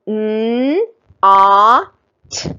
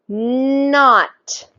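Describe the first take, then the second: First: The three sounds are said a little faster. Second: The sounds are blended quickly into one word. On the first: "A little faster this time" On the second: "a little bit faster"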